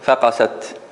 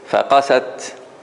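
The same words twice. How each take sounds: First: The opening syllable 'fa' is stressed. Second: The opening syllable 'fa' is unstressed. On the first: The 'fa' is treated as part of the word's root. The speaker calls it wrong. "if I say it wrong, I would say faqasat" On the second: The 'fa' is a separate prefix on the word. The speaker calls it right. "if I say it correctly, I would say faqasat"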